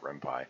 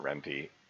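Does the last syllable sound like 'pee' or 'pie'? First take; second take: pie; pee. First: The last syllable sounds like 'pie'. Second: The last syllable sounds like 'pee'. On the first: "the pi is coming from Python, so I started pronouncing it Renpy" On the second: "when I first saw the word, I pronounced it Renpy"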